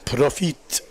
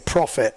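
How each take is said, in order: First: The word is said with a French accent. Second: The word is said with an English accent. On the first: "He'd say profit" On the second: "I wouldn't expect a Frenchman to say profit"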